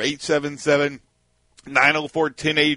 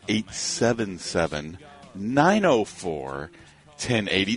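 First: It is said at a normal pace. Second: It is said slowly, in a relaxed voice.

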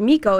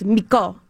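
First: The stress is on the first syllable. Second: The stress is on the second syllable.

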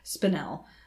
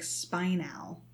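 First: It is pronounced differently from the word spinal. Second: It is pronounced exactly like the word spinal. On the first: This is how the speaker learned it. The speaker calls it right. "I spent way too long learning it as spinel" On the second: This is how the audiobook says it. The speaker calls it wrong. "The audiobook says spinel, like spinal"

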